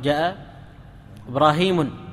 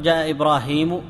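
First: The name ends with an added n sound. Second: The name ends without an added n sound. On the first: The speaker calls it wrong. "ولا تقول" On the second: The speaker calls it right. "لا تقبل التنوين في كل أحوالها. لذلك تقول"

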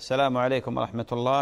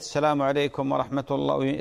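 First: The greeting is said briskly in one breath. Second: The greeting is drawn out with stretched vowels. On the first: This is the proper prescribed greeting. The speaker calls it right. "السلام الشرعي يا أخوي حمد هكذا" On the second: This practice has no known supporting evidence. The speaker calls it wrong. "تمطيط"

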